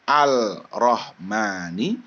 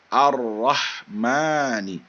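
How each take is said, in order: First: An L sound is heard before the R. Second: The L merges into a doubled R sound. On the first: The speaker calls it wrong. "bukannya Al-Rahmani" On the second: The speaker calls it right. "dibacanya Ar-Rahmani"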